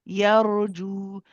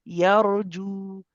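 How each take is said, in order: The two takes are said the same way.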